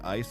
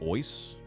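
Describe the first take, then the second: First: The vowel sounds like 'eye'. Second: The vowel sounds like 'oy'. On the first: This is the usual way to say it. "They they don't say ice" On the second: This is how those other people say it. "they say ois"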